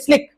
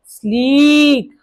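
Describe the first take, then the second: First: The vowel is a short 'i' sound. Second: The vowel is a long 'ee' sound. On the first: The speaker calls it wrong. "हम ऐसे नहीं पढ़ेंगे स्लिक, गड़बड़ हो जाएगी" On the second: The speaker calls it right. "Same इसकी जैसे पढ़ना है"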